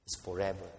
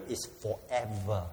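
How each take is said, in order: First: Quieter repeat with "forever" stressed; soft, settling echo. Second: Slow, with "its" leaned on hard; emphatic statement, slowed. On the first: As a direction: let "forever" sink in softly. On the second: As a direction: stress "its", drawing out "forever". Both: Shown as a demonstration.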